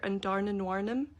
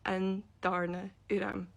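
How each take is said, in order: First: The name is pronounced like English, with extra syllables. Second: The name is pronounced like a Gaelic speaker. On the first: The speaker calls it wrong. "she calls her" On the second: The speaker calls it right. "You pronounce it"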